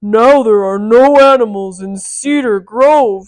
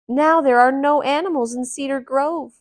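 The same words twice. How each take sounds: First: Booming loud giant with a falling end. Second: Said in the usual way. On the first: Shown as a demonstration. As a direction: boom it out like a menacing giant. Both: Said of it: "let me change that".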